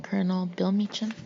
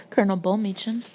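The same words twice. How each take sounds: First: "Bill" read in place of "Bull" with the vowel of pill; "Colonel Bill Meacham" as an unnoticed misreading; misread name. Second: "Bull" with the vowel of pull, read again after a small laugh; corrected "Bull Meacham", said through a little laugh; corrected name. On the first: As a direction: say "Bill Meacham" as written, a slip of the eye. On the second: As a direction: fix the slip: "Colonel Bull Meacham" with a chuckle. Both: Real, not acted. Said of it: "Bull, I'm sorry".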